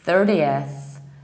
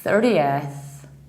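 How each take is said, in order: First: It is said in an American accent. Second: It is said in an American accent.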